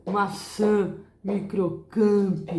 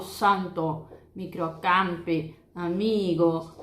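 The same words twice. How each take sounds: First: Microcamp with a nasal Portuguese a, slow. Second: Microcamp with a wide open Spanish a, no nasal. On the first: Teacher showing students the Portuguese nasal a. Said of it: "No português a gente tem o som de santo". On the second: Teacher contrasting the Spanish a for students. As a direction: open the a, keep it oral. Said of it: "O A, ele é uma letra mais aberta em espanhol". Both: Shown as a demonstration.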